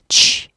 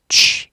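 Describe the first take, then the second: Both takes have the same delivery.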